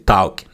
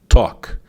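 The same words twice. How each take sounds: First: The vowel sounds like an 'a'. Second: The vowel sounds like an 'o'. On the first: The speaker calls it wrong. "Sometimes when you're learning, you say talk. No" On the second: The speaker calls it right. "It's like if it was an O instead of an A"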